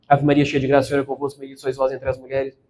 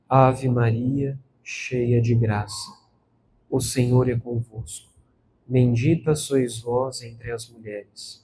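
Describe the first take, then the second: First: The words are rushed and run together. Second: Each word is pronounced slowly and distinctly. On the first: The person is distracted, not attending to the words. The speaker calls it wrong. "a gente engata e a gente se distrai" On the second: The person is attentive to every word. The speaker calls it right. "dizendo cada palavra sem perder nenhuma"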